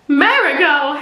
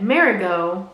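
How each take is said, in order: First: Marigot blurted louder with a laugh; laughing exclamation. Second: Said in the usual way. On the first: Shown as a demonstration.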